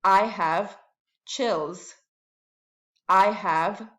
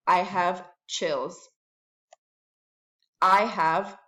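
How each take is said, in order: Both takes have the same delivery.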